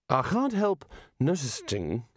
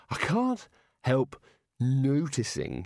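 First: Hesitant Rincewind. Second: Halting, slow Rincewind. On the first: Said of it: "he tried again". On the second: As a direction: stretch it out hesitantly. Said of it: "he said". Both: Acted.

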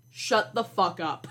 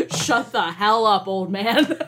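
First: Said in the usual way. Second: Put-on louder, slower retort to the old professor. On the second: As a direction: punch it out slowly and louder.

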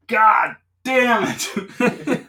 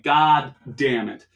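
First: Drawn-out, very slow laughing yell, much higher and louder; laughing shout. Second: Resigned curse. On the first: Retelling getting pulled over again, howling the curse with laughter. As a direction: stretch the curse out in a big laughing howl. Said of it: "I'm like". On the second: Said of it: "And I'm like". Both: Retold or imitated.

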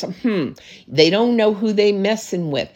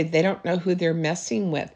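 First: A touch of smug haughtiness, chin up; lightly mock the proud, superior tone; haughty. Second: Softer, humble and grateful, not boasting; grateful heart. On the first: Pastor showing the wrong, prideful way to say it, mildly haughty. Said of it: "But you can't do it with a haughtiness". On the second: Pastor showing the humble way to say it, softly grateful. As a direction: say it quietly, as a thankful child of God. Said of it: "And I say it with a grateful heart". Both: Shown as a demonstration.

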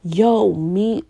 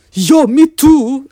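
First: Said in the usual way. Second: Put-on loud, high, drawn-out African French accent; hammed-up African French accent, slow and loud. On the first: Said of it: "she does not speak like that". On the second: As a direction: imitate mom in a big African French accent. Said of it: "imagine it in a African French accent".

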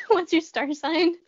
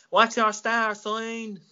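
First: Put-on amused echo of an Irish accent, higher and slow; copied Irish accent. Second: Slow, higher-pitched exaggerated Irish accent; weird Irish accent. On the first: Co-host echoing the drunk lady's line, mock Irish accent. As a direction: parrot the weird Irish accent back. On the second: Drunk lady accosting strangers in Ireland, weird Irish accent. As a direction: draw it out in a mock Irish accent. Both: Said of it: "In that weird accent".

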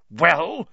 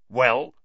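First: Well? louder and higher, pressing harder; sharper demand. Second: Louder, impatient Well?; impatient demand. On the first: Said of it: "said Snape again". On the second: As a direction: snap the question Well?. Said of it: "said Snape". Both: Acted.

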